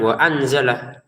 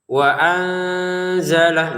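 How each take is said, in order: First: The nasal sound before the z is cut short. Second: The nasal sound before the z is held long. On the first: The speaker calls it wrong. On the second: The speaker calls it right.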